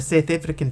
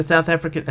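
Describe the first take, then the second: First: Exaggerated South African accent; put-on South African pronunciation. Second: Said in the usual way. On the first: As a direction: slip into South African vowels. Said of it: "same accent to my ears".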